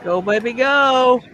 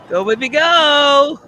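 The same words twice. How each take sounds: First: Excited cheering. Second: Slow, loud, higher cheer, all in; loud excited cheering. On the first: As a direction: urge the rocket up, drawn out. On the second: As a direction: yell it on as it climbs. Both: Real, not acted. Cheering the rocket on.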